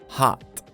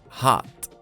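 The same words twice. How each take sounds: First: The vowel sounds like an open 'ah'. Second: The vowel sounds like an open 'ah'.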